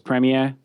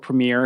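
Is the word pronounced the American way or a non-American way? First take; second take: non-American; American. First: It is said in a non-American pronunciation. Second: It is said in an American pronunciation.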